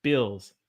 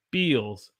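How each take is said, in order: First: Said in the usual way. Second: "Bills" as "beels"; long ee in "Bills"; Southern held vowel. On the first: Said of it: "One has a ill". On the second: Shown as a demonstration. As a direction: say "Bills" to rhyme with eels. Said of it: "One has a eel".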